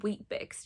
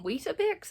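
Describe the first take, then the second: First: "Weet-Bix" in two beats, no middle "a"; corrected pronunciation. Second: "Weetabix" in three beats, with the middle "a"; questioned pronunciation. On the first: Reader correcting listeners on a cereal name, corrective pronunciation of "Weet-Bix". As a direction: say "Weet-Bix" as one short word. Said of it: "It's just one word". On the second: Reader querying listeners over a cereal name, incredulous pronunciation of "Weetabix". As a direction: query "Weetabix", pitched up high. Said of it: "It's just Weet-Bix". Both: Shown as a demonstration.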